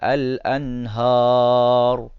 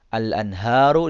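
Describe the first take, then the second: First: The word ends on a consonant without vowel. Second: The word ends with a short vowel.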